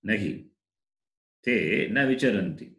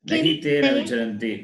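First: There is a pause after the first word. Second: It runs on with no pause. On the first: The speaker calls it right. "Answer is" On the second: The speaker calls it wrong. "Not like that"

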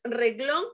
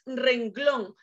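First: No n sound comes before the g. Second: An n sound comes before the g. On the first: The speaker calls it wrong. "si tú dices reglón, otro ciclo" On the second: The speaker calls it right. "Te cuento que es renglón"

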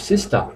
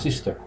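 First: It is said with a British accent. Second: It is said with a non-British accent.

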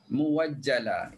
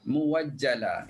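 First: A w sound comes before the second vowel. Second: The same.

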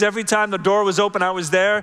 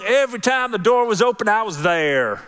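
First: It is said in a neutral accent. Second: It is said in a Southern accent.

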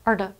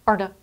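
Both takes have the same delivery.

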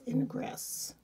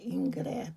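First: The name is pronounced an English way. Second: The name is pronounced the French way. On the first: "but maybe it's Ingress" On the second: "I'm pronouncing it a French way"

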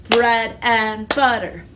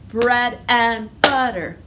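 The two takes are said the same way.

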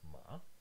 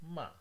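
First: The pitch rises from middle to high. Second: The pitch falls from high to low. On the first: "The rising, it has a bar that starts in the middle and then goes all the way up" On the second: "the falling tone starts high and ends all the way down"

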